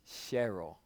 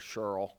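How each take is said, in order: First: The name is said without a New Jersey accent. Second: The name is said in a New Jersey accent. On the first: The speaker calls it right. "it's Cheryl" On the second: The speaker calls it wrong. "I usually say Cheryl ... when you're from New Jersey, everything's Cheryl"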